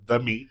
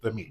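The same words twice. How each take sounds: First: The words are said with heavy, loaded emphasis. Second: The words are said in a plain, ordinary way. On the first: It carries a suggestive double meaning. The speaker calls it wrong. "not capital T, capital M" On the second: It just means the food. The speaker calls it right. "lowercase t, lowercase m"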